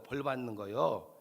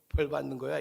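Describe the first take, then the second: First: It is said in a regional dialect. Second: It is said in standard Korean. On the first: The speaker calls it wrong. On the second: The speaker calls it right.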